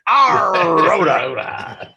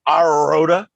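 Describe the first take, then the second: First: It is said in a growly pirate voice. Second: It is said in a plain, ordinary voice.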